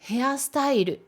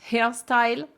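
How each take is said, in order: First: It is said with Japanese katakana sounds. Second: It is said with English sounds. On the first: "On essaie de le lire ensemble" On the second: "Prononcé à l'anglaise, ce serait"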